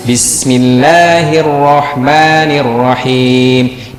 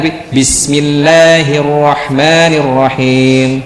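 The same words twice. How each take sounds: First: Slow chant, Bismillah cut under one beat; shortened vowel, wrong. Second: Slow chant of Bismillahirrahmanirrahim giving every vowel a full beat; full vowel, correct. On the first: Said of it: "tapi itu kurang dari satu". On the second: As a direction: recite Bismillahirrahmanirrahim evenly, no clipped mi. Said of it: "jangan, jangan Bismillah". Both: Shown as a demonstration.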